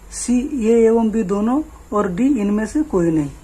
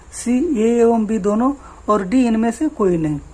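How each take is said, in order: Both takes have the same delivery.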